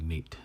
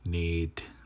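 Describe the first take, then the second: First: The vowel is short, not held. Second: The vowel is held long. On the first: The speaker calls it wrong. "instead of Nate" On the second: The speaker calls it right. "You have these lengthens in here now"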